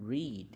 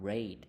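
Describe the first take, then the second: First: "read" said like "reed", long ee; present-tense read. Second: "read" said like the colour red; past-tense read. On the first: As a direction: say "read" to rhyme with "need", higher pitched. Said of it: "เขียนคือกันเนาะ แต่ว่าอ่านออกเสียงต่างกัน". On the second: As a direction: say "read" to rhyme with "bed". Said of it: "รูปแบบอ่านว่า read". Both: Shown as a demonstration.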